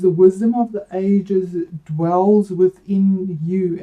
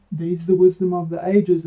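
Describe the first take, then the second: First: "wisdom" drawn out, slow and deliberate; slow solemn reading. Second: Said in the usual way. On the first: Acted. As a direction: read the card line slowly and solemnly. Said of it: "the card meaning is".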